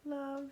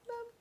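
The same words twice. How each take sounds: First: It is said in a normal voice. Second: It is said in a tiny, squeaky mouse voice.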